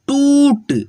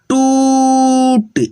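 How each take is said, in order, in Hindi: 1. स्वर को बस थोड़ा ही खींचना है। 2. स्वर को बहुत लंबा खींचना है। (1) "थोड़ा ही खींचना है" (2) "ऐसे नहीं पढ़ेंगे"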